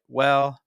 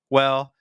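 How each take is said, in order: No difference in how they are said.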